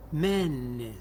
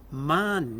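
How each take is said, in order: First: MENES with the first A closed to E; fronted, closed E vowel. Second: MANES with an open, drawn-out A; original A vowel. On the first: Lecturer showing the changed form, first vowel E in "menes". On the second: Lecturer showing the older plural form, open A in "manes". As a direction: stretch "manes" on a wide A. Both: Shown as a demonstration. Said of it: "avec une fermeture et une antériorisation".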